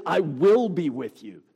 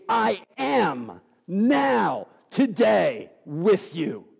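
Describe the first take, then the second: First: Said in the usual way. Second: "now" drawn out very slowly and stressed, then "today", then "with you"; slow, weighty "I am now, today, with you"; emphatic now. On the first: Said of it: "it's not even". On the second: Shown as a demonstration. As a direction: stretch "now" like a present-tense promise. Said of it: "That concept is understood".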